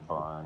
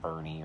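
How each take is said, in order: First: The name has one syllable, ending in 'n'. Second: The name has two syllables, ending in 'ee'. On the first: "people pronounce it different ways" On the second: "people pronounce it different ways"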